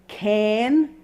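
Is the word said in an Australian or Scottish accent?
Australian. It is said in an Australian accent. "is how you pronounce it with a lovely Australian accent"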